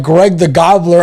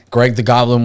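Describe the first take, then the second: First: "Gobbler" said like the turkey sound, GOB-bler, laughing high and loud; "Greg the Gobbler" as a cracked-up turkey name; wrong name. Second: Said in the usual way. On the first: Retold or imitated. Repeating dad's "Gobbler" to his brother, laughing. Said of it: "We're like". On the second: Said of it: "Was Greg the Gobbler there?".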